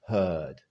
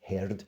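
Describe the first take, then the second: First: It is said in a standard British accent. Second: It is said in a Scottish accent. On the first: "In standard British English, you'll hear" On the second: "you just sound Scottish, which is even better"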